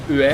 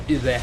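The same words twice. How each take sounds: First: "ue" with rounded Swedish vowels; "ue" with a Swedish accent; Swedish-sounding ue. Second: "Ue" said with rounded Swedish vowels; Swedish-accented "Ue". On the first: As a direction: let "ue" slip into Swedish oo sounds. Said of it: "Whenever I say". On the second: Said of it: "It's like I go". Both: Shown as a demonstration.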